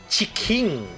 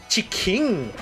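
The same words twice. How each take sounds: First: It is said with a Japanese pronunciation. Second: The same.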